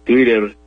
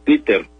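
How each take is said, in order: First: Twitter with the t flapped like r, twiɾer; English Twitter. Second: Twitter with a hard t, twi-ter; Spanish Twitter with T. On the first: Recalling the Twitter name for Leo, Twitter with flapped t. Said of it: "la T que suena como una R". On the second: Explaining how everyone said it to Leo, Twitter with hard t. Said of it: "Twitter con la T". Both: Shown as a demonstration.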